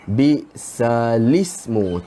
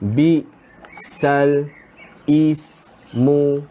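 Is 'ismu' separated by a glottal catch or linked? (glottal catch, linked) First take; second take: linked; glottal catch. First: The l runs straight into 'ismu' without a catch. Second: A glottal catch separates 'bisal' from 'ismu'. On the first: The speaker calls it right. "dia akan jadi macam ni" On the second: The speaker calls it wrong. "kita tak boleh baca bisal ismu"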